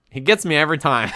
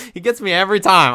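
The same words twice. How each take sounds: First: Said in the usual way. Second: Higher and louder, laughing it off; amused emphatic repeat. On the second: Real, not acted.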